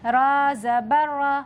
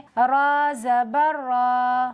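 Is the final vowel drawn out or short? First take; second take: short; drawn out. First: The final vowel is said short and quick. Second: The final vowel is stretched out long. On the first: The speaker calls it right. "जल्दी पढ़ेंगे" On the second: The speaker calls it wrong. "इस तरह से खींचना गलत है"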